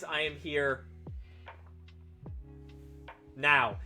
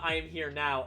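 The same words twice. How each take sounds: First: There is a long pause before "now." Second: It is said without a pause before "now."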